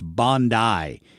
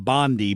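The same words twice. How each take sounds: First: Bondi is pronounced the local Australian way. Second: Bondi is pronounced the usual American way. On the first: The speaker calls it right. "apparently in Australia it's Bondi" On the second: The speaker calls it wrong. "I was pronouncing it like Pam Bondi"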